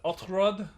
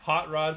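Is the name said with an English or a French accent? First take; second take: French; English. First: It has a French accent with no h sound. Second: It has an English accent with an h sound.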